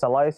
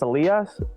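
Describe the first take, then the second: First: The name is pronounced with English sounds. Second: The name is pronounced with Spanish sounds. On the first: "in English" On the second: "in Spanish"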